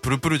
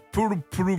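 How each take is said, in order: First: It is said with plain native Japanese pronunciation. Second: It is said with a foreign-sounding, accented pronunciation. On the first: "日本人がプルプルって言ったらプルプルじゃないですか" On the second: "あのCM だとプルプルみたいな感じなんですよ"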